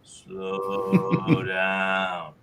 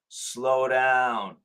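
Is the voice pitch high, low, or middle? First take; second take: low; high. First: It is said at a low pitch, slowest. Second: It is said at a high pitch, fastest.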